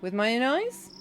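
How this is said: It is said as a question, rising.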